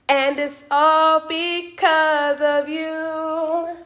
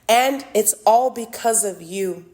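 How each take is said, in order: First: It is said in a put-on character voice. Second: It is said in the speaker's ordinary voice.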